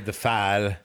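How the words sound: The vowel is a short 'a' sound. "And they say the fal"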